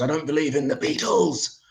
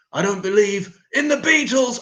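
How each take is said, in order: First: Said in the usual way. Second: Higher, louder sung-out shout; shouted quote. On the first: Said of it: "he goes". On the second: Retold or imitated. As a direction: belt the line as the outrageous one. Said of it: "that's the offensive bit".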